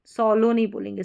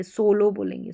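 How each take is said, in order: First: सोलो said with an open aw, as "saw-lo"; teacher showing the mispronunciation सोलो as "sɔlo"; wrong way. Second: सोलो with a long pure O, "so-lo"; teacher giving the correct सोलो with a long O; right way. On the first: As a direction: give सोलो a short open first vowel, the wrong way. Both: Shown as a demonstration.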